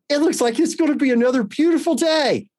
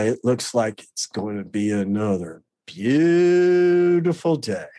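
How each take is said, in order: First: The voice sounds warm and cheerful. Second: The voice sounds bitter and sarcastic. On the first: The speaker sincerely means it will be a nice day. "And just that tone of voice" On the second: The speaker seems to mock or resent the listener. "my illness would twist it and filter it, and never in my favor"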